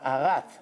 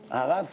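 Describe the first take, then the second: First: The word ends with a t sound. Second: The word ends with an s sound. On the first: It means the world was created. The speaker calls it right. "like like the American T H. Ta" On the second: It means the world was destroyed. The speaker calls it wrong. "He doesn't say haras"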